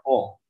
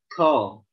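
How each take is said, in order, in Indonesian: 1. Suku kata "qo" bersuara, dengan napas yang ditahan. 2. Suku kata "qo" berbisik, dengan udara yang keluar. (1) "Kalau dia punya sifat jahar ya maka dia mesti baca" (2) "Kalau hams gimana?"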